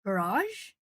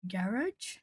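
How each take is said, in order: First: "Garage" as guh-RAHZH, questioning rise; trying a pronunciation. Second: "garage" as GARR-ij, questioning rise; trying a pronunciation. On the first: Streamer testing the other pronunciation, "Garage" as guh-RAHZH. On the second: Streamer puzzling over the pronunciation for a viewer, "garage" as GARR-ij. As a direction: say "garage" stressed on the first syllable, ending -ij. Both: Shown as a demonstration. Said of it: "The pronunciation of gar".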